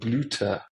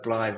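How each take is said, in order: First: It is two syllables with a 'u' vowel. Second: It is one syllable with an 'eye' vowel. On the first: "Germans pronounce Y U" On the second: "not as like a one syllable"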